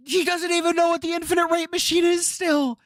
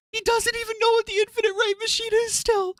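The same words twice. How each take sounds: First: Whining it high in disbelief; pitched-up frustrated whine; high exasperated whine. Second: Pushed even higher, near squeaking; shrill exasperated squeal. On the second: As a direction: squeal it at the top of the voice. Same words pushed even higher. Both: Real, not acted.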